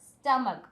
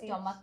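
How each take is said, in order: First: The first vowel is an 'uh' sound. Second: The first vowel is an 'o' sound. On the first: The speaker calls it right. "It's സ്റ്റ സ്റ്റമക്ക്" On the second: The speaker calls it wrong. "സ്റ്റൊമക്ക് അല്ല"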